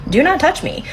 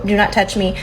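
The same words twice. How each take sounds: First: "not" hit high and hard; stress on not. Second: Said in the usual way. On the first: Shown as a demonstration. Telling viewers her boundary, "not" stressed high. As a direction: lean right into "not".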